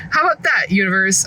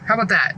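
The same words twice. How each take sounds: First: Defiant. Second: Said in the usual way. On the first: Real, not acted. Mom with a huge cookie, defiantly taunting the universe. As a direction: throw it at the universe.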